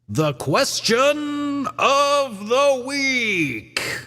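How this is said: It is said in a grand, dramatic way.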